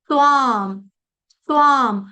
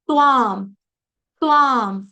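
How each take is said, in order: The two takes are said the same way.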